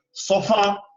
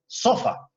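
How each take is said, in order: First: "sofá" with the stress on the last syllable, so-FÁ; stress on final syllable. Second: "sofa" with the stress moved to the first syllable, SÓ-fa. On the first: Teacher contrasting two words for the class, "sofá" stressed at the end. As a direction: lean on the FÁ in "sofá". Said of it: "pronunciar una sílaba con más fuerza que las otras". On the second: Teacher showing a changed accent, "sofa" stressed on SO. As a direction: hit the SO in "sofa", let fa drop. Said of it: "suena muy distinta". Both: Shown as a demonstration.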